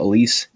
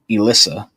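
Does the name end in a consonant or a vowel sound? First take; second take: consonant; vowel. First: The name ends on a consonant sound. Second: The name ends on an added vowel sound. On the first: The speaker calls it right. "My stepmother's name is Elise" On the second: The speaker calls it wrong. "He said Elissa. ... He didn't get that right"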